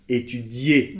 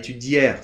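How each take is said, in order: First: The word ends in a vowel, no R. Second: The word ends with a pronounced R sound. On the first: The speaker calls it right. "Étudier et pas" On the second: The speaker calls it wrong. "et pas étudière, s'il vous plaît"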